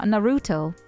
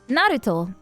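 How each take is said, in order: First: The name is said with American English pronunciation. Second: The name is said with Japanese pronunciation. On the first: "everyone says na- Naruto because American English" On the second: "is how you say it"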